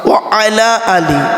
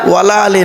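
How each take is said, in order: First: 'Wa' and 'ala' are said as separate words. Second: 'Wa' and 'ala' merge into one word 'wala'. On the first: The speaker calls it right. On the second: The speaker calls it wrong.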